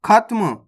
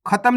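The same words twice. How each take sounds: First: खत्म as "khat-m"; correct half-letter reading. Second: खत्म opened up as "kha-tam"; wrong full-letter reading. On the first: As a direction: run t straight into m in खत्म. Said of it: "खत्म नहीं पढ़ना". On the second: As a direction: put a vowel after t in खत्म. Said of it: "नहीं पढ़ना". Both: Shown as a demonstration.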